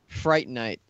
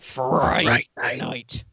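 First: It is said in the speaker's ordinary voice. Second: It is said in a put-on impression voice.

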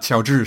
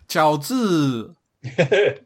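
First: The tones are said plainly and briefly. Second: The tones are drawn out, Thai-style.

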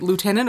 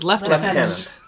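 First: The first syllable sounds like 'loo'. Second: The first syllable sounds like 'lef'.

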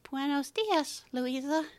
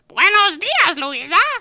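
First: It is spoken in an old man's voice. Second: It is spoken in a squawky parrot voice. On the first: A dead relative seems to be speaking. "the grandfather voice that we've been hearing" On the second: A bird is only repeating the words. "in a parrot voice"

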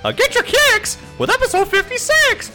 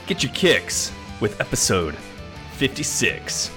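First: It is said in a high cartoon-character voice. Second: It is said in a normal speaking voice.

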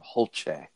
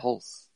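First: The name is said fancily, rhyming with 'dulce'. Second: The name is said plainly, like 'hulse'. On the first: The speaker calls it wrong. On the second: The speaker calls it right.

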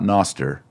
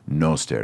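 First: The O is said short. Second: The O is said long. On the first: The speaker calls it wrong. "not noster" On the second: The speaker calls it right. "It's a long O"

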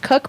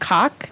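First: The vowel sounds like the one in cook. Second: The vowel sounds like the one in cock. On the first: This is how the family says it. "it's pronounced Cook" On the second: This is how many other people say it. "a lot of people pronounce it Cock"

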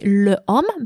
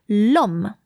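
First: The article keeps its vowel before homme. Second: The article loses its vowel, joined to homme. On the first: The speaker calls it wrong. "it's not going to be le homme" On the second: The speaker calls it right. "but l'homme"

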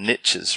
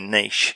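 First: It is said the American way, rhyming with riches. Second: It is said the Australian way, like neesh.

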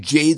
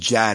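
First: The name is said with a long 'ay' vowel. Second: The name is said with a short 'a' vowel. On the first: The speaker calls it right. "it's pronounced as Jade" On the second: The speaker calls it wrong. "So I actually pronounced it wrong. I said Jad"

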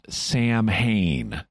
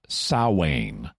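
First: The word is said the way it is spelled. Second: The word is said unlike the way it is spelled. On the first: The speaker calls it wrong. "not pronounced Samhain" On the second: The speaker calls it right. "It's pronounced Samhain"

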